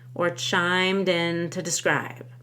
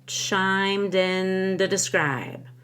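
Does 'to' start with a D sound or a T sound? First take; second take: T; D. First: The word 'to' is said as 'ta'. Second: The word 'to' is said as 'da'. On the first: "I can either say da or ta" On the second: "I can either say da or ta"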